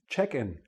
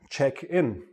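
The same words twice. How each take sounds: First: The stress falls on the first part. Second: The stress falls on the second part. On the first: It is used as a noun. "and a noun" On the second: It is used as a verb. "A verb"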